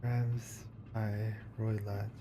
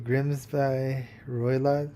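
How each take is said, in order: First: Grimsby Roylott murmured very slowly and much softer; slow, softer musing. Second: Grimsby Roylott drawn out with Roylott hit; slow, stress on Roylott. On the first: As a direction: mumble the name to yourself, stretching Grimsby. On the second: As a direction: stretch the name, lean on Roylott. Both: Shown as a demonstration. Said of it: "I'm trying to find the pun in this name".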